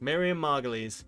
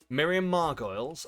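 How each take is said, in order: First: The surname ends with a 'leez' sound. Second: The surname ends with a 'goyles' sound. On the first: The speaker calls it right. "Yes, I always get it wrong" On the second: The speaker calls it wrong. "I always pronounce it wrong"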